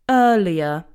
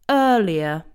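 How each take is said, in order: No difference in how they are said.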